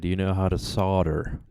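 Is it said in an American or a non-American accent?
American. It is said in an American accent.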